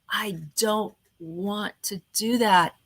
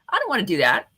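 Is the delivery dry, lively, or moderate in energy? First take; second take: dry; moderate. First: It is said in a flat, dry voice. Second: It is said with moderate, average energy. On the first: "it's kind of boring, it's kind of dry" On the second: "kind of an average"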